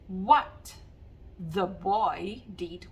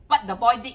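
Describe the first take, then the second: First: The final consonants are clearly articulated. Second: The final consonants are dropped in Singlish style. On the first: The speaker calls it right. "You've got to pronounce and articulate the words" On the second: The speaker calls it wrong. "this is very Singlish"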